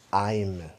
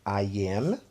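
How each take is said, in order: First: It is said as one single syllable. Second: It is said as two separate syllables. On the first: "forma contraída" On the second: "forma longa"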